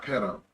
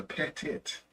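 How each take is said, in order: First: Petto, ending in an open "-o"; wrong pronunciation. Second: Pettit, ending in a crisp "-tit"; corrected pronunciation. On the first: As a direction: say "Petto" with a final o sound. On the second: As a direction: say "Pettit" with a clear final t. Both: Shown as a demonstration. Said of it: "not Petto".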